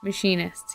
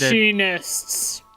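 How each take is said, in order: First: It is said in a normal speaking voice. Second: It is said in a put-on character voice.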